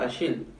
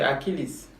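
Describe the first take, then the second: First: The name is pronounced the French way. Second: The name is pronounced the English way. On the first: "ce n'est pas Achille" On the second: "en anglais, ... c'est Achilles"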